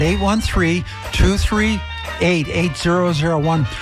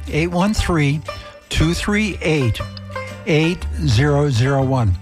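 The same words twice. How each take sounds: First: The number is said at normal speed. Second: The number is said slowly.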